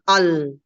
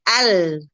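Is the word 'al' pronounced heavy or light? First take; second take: heavy; light. First: The vowel and the l sound heavy and thick. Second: The vowel and the l sound light and thin. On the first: The speaker calls it wrong. "bukan begitu bacanya" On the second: The speaker calls it right. "dilebarkan, lamnya tipis, a-nya juga tipis"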